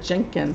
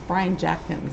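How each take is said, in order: First: The name is said as Jenkins. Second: The name is said as Jackins. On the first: The speaker calls it wrong. "I said that wrong" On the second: The speaker calls it right. "It's Brian Jackins"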